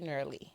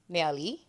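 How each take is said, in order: First: The name is said with an English pronunciation. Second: The name is said with a French pronunciation. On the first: "the English speaking people can say Nerly" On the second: "for the French speaking people"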